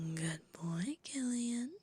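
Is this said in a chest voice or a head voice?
head. It is said in a lighter, higher head voice. The speaker calls it wrong. "I think I can do better than that"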